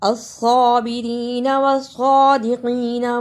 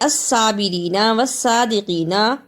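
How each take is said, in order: First: The s sound is heavy and emphatic. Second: The s sound is light and plain. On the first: The speaker calls it right. "दोनों में स्वाद को सही अदा करना" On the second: The speaker calls it wrong. "स्वाद की जगह पर सीन की आवाज नहीं आनी चाहिए"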